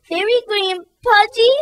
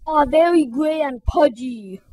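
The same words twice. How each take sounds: First: High, hurt, wailing voice. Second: Smirking bully. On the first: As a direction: wail the words back in hurt disbelief. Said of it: "wailed Fragility". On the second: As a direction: sneer the insult like a bully. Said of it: "said Rudy with a smirk". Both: Acted.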